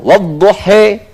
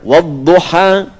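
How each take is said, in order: First: The final vowel is pronounced as an 'e'. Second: The final vowel is pronounced as an open 'a'. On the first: "Dipakai e pun jadi e" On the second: "Yang pakai a"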